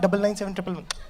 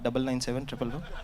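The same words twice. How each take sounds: First: It is said in an eager, excited tone. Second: It is said in a low, flat tone. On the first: The speaker is eager to give the number. "Excited होकर नहीं दे रहे कि" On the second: The speaker is indifferent about giving the number. "ऐसे लो tone हो"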